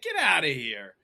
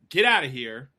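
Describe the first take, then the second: First: It sounds light and joking. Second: It sounds stern and dismissive. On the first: The listener is not really being told to leave. "that's a different invitation" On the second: The listener is really being told to leave. "you're gonna recognize like, whoa, maybe I need to get out of here"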